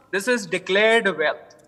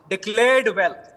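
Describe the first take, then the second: First: "declared" said slowly and pointedly; stress on declared. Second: Said in the usual way. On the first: Shown as a demonstration. Panelist to news anchor, pointedly stressing "declared" slowly. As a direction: lean hard on "declared", slowly. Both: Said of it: "why am I emphasizing on the word declared".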